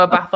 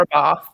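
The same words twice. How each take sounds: First: Bath with a short A, as in cat; bath the short-vowel way. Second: Bath with a long 'ah' vowel, 'bahth'; bath the broad-vowel way. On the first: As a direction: say bath with a flat 'a' vowel. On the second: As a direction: say bath as bahth. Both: Shown as a demonstration. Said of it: "No, a bath or a bath".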